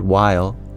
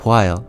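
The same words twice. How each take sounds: First: The first sound is plain, without a breath. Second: The first sound has an audible puff of breath.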